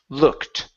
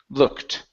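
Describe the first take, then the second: The two takes are said the same way.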